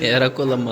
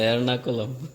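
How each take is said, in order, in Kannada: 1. 'Er' ನಂತರ 'n' ಇಲ್ಲದೆ ಹೇಳ್ತಾರೆ. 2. 'Er' ನಂತರ 'n' ಇಟ್ಟುಕೊಂಡು ಹೇಳ್ತಾರೆ.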